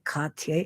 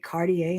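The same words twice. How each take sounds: First: The name is said with a French pronunciation. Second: The name is said with an English pronunciation. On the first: This is the form being learned. The speaker calls it right. "instead of Cartier" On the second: The old habit slips out. The speaker calls it wrong. "I'll still say Cartier instead of"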